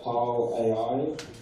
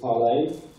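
First: It is read as it looks, ending in A-I. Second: It is said like the word parley. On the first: The speaker calls it wrong. "that looks like ParlAI, something like that" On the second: The speaker calls it right. "but we pronounce it ParlAI"

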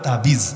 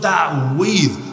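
First: The word is said in its everyday Bengali form. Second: The word is said in its original Arabic form. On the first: "বাংলায় বলে তাবিজ" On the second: "মূল উচ্চারণ হল তাওয়িজ। তাওয়িজ আইন সহকারে একটু জটিল উচ্চারণ"

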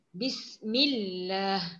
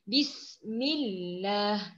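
The two takes are said the same way.

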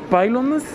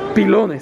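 First: The name is pronounced the English way. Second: The name is pronounced the Spanish way. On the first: The speaker calls it wrong. "yo quería decirlo en inglés" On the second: The speaker calls it right. "ya me dijo Juan que es pilones"

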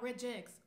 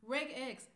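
First: The g sounds soft, like a j. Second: The g sounds hard, as in regular. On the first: The speaker calls it wrong. "not regex" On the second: The speaker calls it right. "I'm a regex person because it's regular, like regular expression"

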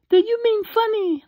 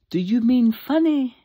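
First: It is said in a put-on female voice. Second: It is said in the speaker's ordinary voice.

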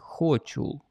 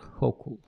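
First: The middle consonant is a ch sound. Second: The middle consonant is a k sound. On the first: The speaker calls it wrong. "По-украински вы бы прочли ее как Хочул" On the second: The speaker calls it right. "си эйч как К"

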